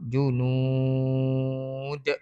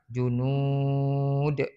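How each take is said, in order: First: The last vowel is held for six beats. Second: The last vowel is held for four beats.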